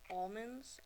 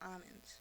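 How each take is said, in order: First: The L sound is clearly pronounced. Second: The L sound is left out. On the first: This is how the word should be said. The speaker calls it right. "there's an L in there" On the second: This is how other people say the word. The speaker calls it wrong. "when people call um, almonds almonds"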